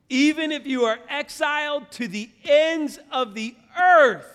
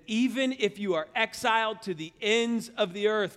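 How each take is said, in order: First: Impassioned preaching. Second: Raised, emphatic preacher's reading; scripture reading. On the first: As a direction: proclaim the verse at full force. Verse repeated for emphasis. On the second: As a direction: read the verse out with rising force. First reading of verse. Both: Acted.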